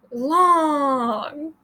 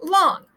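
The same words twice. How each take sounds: First: LONG with the O held out; stretched vowel. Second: Said in the usual way. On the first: Shown as a demonstration. Teacher showing other vowels stretch, drawn-out "long". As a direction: draw the vowel of "long" way out, sliding slowly. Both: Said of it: "You can do it with other vowels".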